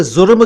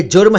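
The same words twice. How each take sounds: First: जुर्म said as "zurm"; wrong z sound. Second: जुर्म said as "jurm"; correct j sound. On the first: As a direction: begin जुर्म with z instead of j. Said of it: "ऐसा न किया करें". (जुर्म का ग़लत उच्चारण, ज़ से) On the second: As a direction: begin जुर्म with j, not z. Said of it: "ये जुर्म है". (जुर्म का सही उच्चारण, ज से) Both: Shown as a demonstration.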